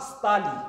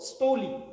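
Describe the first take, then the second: First: The first vowel is pronounced as a. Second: The first vowel is pronounced as o.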